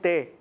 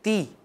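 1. یہ حرکت 'ay' کا ساؤنڈ ہے، جیسے اردو میں۔ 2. یہ حرکت ایک لمبی، واضح 'ee' کا ساؤنڈ ہے۔ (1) "یہ غلط ہے" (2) "تی پراپر تی"

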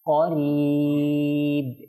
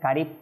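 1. এটি ভারী, গভীর q ধ্বনি দিয়ে শুরু হয়। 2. এটি হালকা, পাতলা k ধ্বনি দিয়ে শুরু হয়। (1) "কফ জবর ক ক করিব" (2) "এটাকে যদি কারিব বলেন কারিব ভুল হবে"

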